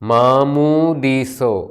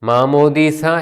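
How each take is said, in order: First: The word ends in an 'o' vowel. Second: The word ends in an 'a' vowel. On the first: This is the Western dialect form. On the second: This is the Eastern dialect form.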